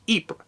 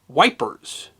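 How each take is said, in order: First: The name is said the French way, like 'Eepr'. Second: The name is said like the English word 'wipers'. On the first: "the French pronunciation is Ypres" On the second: "the English who fought there often called the city Wipers"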